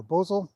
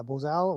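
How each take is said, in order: First: "bozel" with the stress on the first syllable; alternate pronunciation. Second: "bozal" with the stress on the second syllable; alternate pronunciation. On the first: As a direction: say "bozel" as BOH-zul. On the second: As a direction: say "bozal" as bo-ZAL. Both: Shown as a demonstration. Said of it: "depending on which way you want to pronounce".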